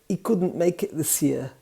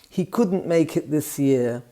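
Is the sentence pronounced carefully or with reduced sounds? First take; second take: reduced; careful. First: Sounds are dropped, with glottal stops. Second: Every sound is pronounced clearly and fully. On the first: "I exaggerated it a little bit now" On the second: "Jan would say"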